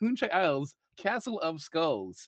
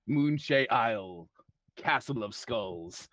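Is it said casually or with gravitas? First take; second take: casually; gravitas. First: It is said casually, without gravitas. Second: It is said grandly, with gravitas.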